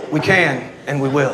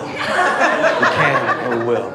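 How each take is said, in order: First: Said in the usual way. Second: Very slow and low, each word weighted; slow emphatic repeat. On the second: Acted. Comic repeating the rally vow to the ladies very slowly. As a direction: drag it out like a protest vow.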